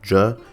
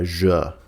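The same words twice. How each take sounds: First: The J sound is short and clipped. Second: The J sound is drawn out and extended. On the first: The speaker calls it wrong. "not like J" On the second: The speaker calls it right. "they are sometimes extended ... It's more of a J"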